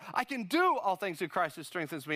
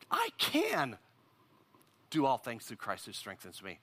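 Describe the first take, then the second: First: The word do is stressed. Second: The word I is stressed.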